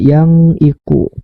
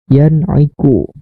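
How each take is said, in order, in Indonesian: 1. Bunyi n kabur, tidak jelas. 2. Bunyi n diucapkan dengan jelas. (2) "maka dibaca harus jelas"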